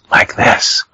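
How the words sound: It is said in a whisper.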